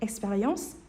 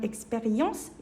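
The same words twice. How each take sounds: First: The word is said quickly with reduced sounds. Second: The word is said slowly and fully. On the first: "빠르게 발음하면" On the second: "천천히 발음하면"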